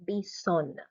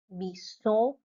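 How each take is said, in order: First: "bisonna" as bee-ZONN with released N; feminine French pronunciation. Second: "bison" with an open nasal ending; masculine French pronunciation. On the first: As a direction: let the N of "bisonna" ring at the end. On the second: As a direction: say "bison" bee-ZON, N left silent. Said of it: "feminine form over here". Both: Shown as a demonstration.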